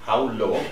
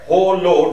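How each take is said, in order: First: The first word has an 'ow' vowel. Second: Both words share the same 'oh' vowel. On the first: The speaker calls it right. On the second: The speaker calls it wrong.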